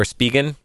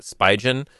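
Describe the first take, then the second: First: Spigen said as SPEE-gen with a hard g; alternative pronunciation. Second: Spigen said as SPY-jen; habitual pronunciation. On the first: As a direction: pronounce Spigen with a long "ee", then g as in get. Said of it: "however you pronounce the name". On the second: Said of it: "I've always called it". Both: Shown as a demonstration.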